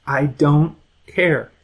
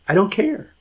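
First: I DON'T CARE in slow, separated words, falling on CARE; deliberate pause before a falling CARE; slow, firm repeat. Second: Higher-pitched brush-off, rising at the end; acted dismissal, pitched up; dismissive. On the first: Acted. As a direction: spell out each word with finality, dropping on CARE. Acted parent repeats it firmly. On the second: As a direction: wave away the excuse with a lifted CARE. Acted parent dismisses excuses.

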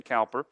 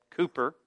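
First: Cowper said with an "ow"; spelling pronunciation. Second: Cooper said with a long "oo"; preferred pronunciation. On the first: Telling listeners the rejected reading, Cowper with "ow". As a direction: say Cowper as COW-per, as spelled. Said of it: "that's how you would think". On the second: Telling listeners how the name was said, Cooper with "oo". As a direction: say Cooper as COO-per. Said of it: "I believe it was said Cooper". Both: Shown as a demonstration.

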